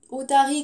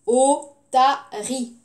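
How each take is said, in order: First: Said in the usual way. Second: "Otarie" slow and firm, three beats, o-ta-rie; split into syllables. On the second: Shown as a demonstration. Teacher counting syllables for the class, "Otarie" syllable by syllable. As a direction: say "Otarie" slowly, separating each syllable. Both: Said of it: "combien de syllabes?".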